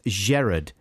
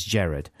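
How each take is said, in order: First: "Gerard" opened with a soft, French-style zh; "Gerard" as Zherard. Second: Said in the usual way. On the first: Shown as a demonstration. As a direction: say "Gerard" with a zh sound at the front. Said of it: "with a soft G".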